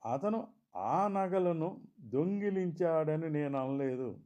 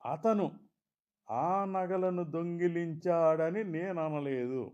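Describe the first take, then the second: First: The stress falls on the word నగలను. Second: The stress falls on the word అతను. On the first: He stole something else. "మరేదో దొంగిలించాడన్నట్లు" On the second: Someone else stole them. "మరెవరో దొంగిలించారన్నట్లు"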